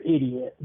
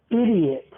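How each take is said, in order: First: Said in the usual way. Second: Short mock yell, pitched high then falling; demonstrated yell. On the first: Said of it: "when they hear". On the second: Worker venting at a caller on mute, mock yell. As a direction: call it out like a muted-phone outburst. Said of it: "I will mute the phone and I will yell".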